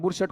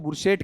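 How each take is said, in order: First: The last syllable has an 'a' vowel. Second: The last syllable has an 'e' vowel. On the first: This is the actual word. "बुरशट शब्द होता है" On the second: This is how people commonly say it. "अपन बोलते हैं बुरशेट"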